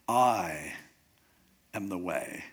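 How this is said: The stress falls on the word I. It is this person and no one else. "just emphasize the first word"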